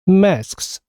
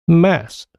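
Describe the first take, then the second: First: All three final consonants s, k, s are pronounced. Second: Only a single s sound ends the word. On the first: "이게 좀 전에 우리가 들었던 발음입니다" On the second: "첫 자음만 발음되고 나머지 두 개 자음은 소리가 없어지는 겁니다"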